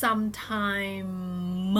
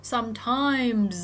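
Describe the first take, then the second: First: Final m of "sometime" held as a long hum; voiced final m. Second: "sometimes" louder, the final s buzzed as a long z; vibration carried on. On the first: Teacher showing students the ending sound, voiced final m in "sometime". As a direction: draw out "sometime" and hum on the closing m. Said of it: "ลงท้ายด้วยเสียง". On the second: Teacher showing the rule for final s, "sometimes" ending in voiced z. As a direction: keep the voice buzzing through the end of "sometimes". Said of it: "สั่นต่อไปเลย". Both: Shown as a demonstration.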